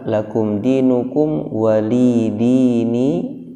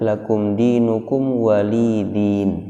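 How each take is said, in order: First: The ya is dropped and it ends in dini. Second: The ya is dropped and it ends in din. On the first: "Dibaca juga" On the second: "ada yang membaca"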